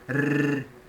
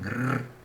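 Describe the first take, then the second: First: The R is a strong vibrating trill. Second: The R is a soft tap without trilling. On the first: "um suave e um forte. E ela é bem vibrante na ponta da língua" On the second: "E o R suave, que não vibra"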